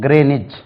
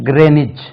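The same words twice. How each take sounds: The two takes are said the same way.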